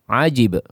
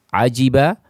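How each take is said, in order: First: The word ends on a bare consonant. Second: The word ends with a final vowel.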